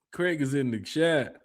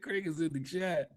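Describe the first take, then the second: First: Slow deliberate. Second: Soft laughing aside. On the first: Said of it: "repeated slower". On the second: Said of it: "repeated softer, slower". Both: Real, not acted.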